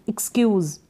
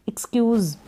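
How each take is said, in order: The two takes are said the same way.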